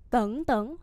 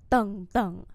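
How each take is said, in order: First: Tầng tầng with two rising tones; rising tầng tầng after the tone change; changed to second tone. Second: Tầng tầng with two low dipping tones; low, separated tầng tầng; original third tones. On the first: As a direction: lift each tầng upward. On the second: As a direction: keep both tầng low before the change. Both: Shown as a demonstration. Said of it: "được biến điệu thành".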